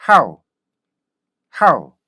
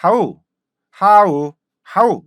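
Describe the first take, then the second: First: "how" punched from a short 학, falling away; loud quick "how" in one gliding syllable; correct stopped-onset how. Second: Loud "how" stretched into open 하우; exaggerated two-vowel "how", starting on 하; Korean-style how. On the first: Teacher shows the result of 학, correct "how". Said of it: "학". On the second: Teacher shows the result of starting with 하, Korean-style "how". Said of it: "하 이렇게 하잖아요". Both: Shown as a demonstration.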